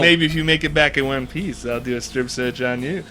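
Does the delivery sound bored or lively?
lively. The line is delivered with lively, engaged expression. The speaker calls it right.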